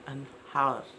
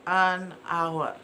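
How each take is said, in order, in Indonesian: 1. Bunyi h di awalnya dibunyikan. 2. Bunyi h di awalnya tidak dibunyikan. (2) "dengarkan baik-baik"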